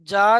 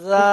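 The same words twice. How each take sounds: First: It starts with a j-like consonant. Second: It starts with the tongue tip on the teeth. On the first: The speaker calls it wrong. "নয়" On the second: The speaker calls it right. "একদম জিভের আগাটা উপরে দাঁতের আগার সাথে লাগান"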